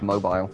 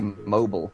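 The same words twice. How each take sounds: First: The word is said in a British accent. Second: The word is said in an American accent.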